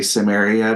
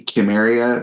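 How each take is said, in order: First: The word begins with an S sound. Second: The word begins with a K sound. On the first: It is the common everyday way to say it. "most people just say Samaria" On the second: It follows the original Greek sound. "they use the K sound"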